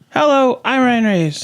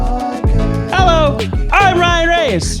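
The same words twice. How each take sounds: First: It is said at a lower pitch. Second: It is said at a higher pitch.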